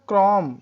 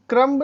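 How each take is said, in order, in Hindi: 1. अंतिम b ध्वनि मौन रहती है। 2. अंतिम b ध्वनि का उच्चारण होता है। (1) "ये एक होता है क्रॉम" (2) "ये क्रम्ब नहीं होता"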